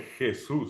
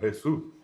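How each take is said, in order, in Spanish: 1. La primera consonante es un sonido áspero y raspante de garganta. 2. La primera consonante es un sonido h suave y aspirado. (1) "nadie dice Jesús" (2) "sino Jesús"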